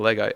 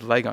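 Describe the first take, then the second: First: It is said in a general Australian accent. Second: It is said in a South Australian accent.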